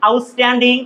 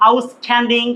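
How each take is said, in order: First: "outstanding" as "aus-tanding", unaspirated t; correct pronunciation. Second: "outstanding" as "aus-thanding", aspirated t; wrong pronunciation. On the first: Teacher telling students what we say, correct pronunciation. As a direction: say "outstanding" with a plain ট. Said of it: "এখানে আসলে আমরা বলছি". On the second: Teacher showing how we are not saying it, mispronounced. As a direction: puff the t in "outstanding", like ঠ. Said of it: "এভাবে আমরা বলছি না". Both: Shown as a demonstration.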